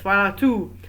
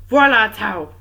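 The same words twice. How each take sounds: First: "Voilà tout" with tout sounding like "too"; corrected French. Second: "Voilà tout" with tout rhyming with "out"; "tout" anglicised to an "ow" vowel; mispronounced French. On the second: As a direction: say "tout" in "Voilà tout" like English "tout", loudly. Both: Shown as a demonstration. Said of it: "Or tout, I think it's".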